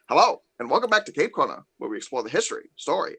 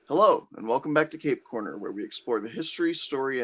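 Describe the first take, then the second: First: It is said in a radio-announcer voice. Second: It is said in a normal speaking voice.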